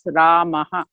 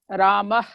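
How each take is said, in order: First: The word ends with an echoing breathy 'ha'. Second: The word ends on a plain vowel, no echo. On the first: The speaker calls it right. "You must pronounce it as Ramaha" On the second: The speaker calls it wrong. "You cannot say Rama like Hindi"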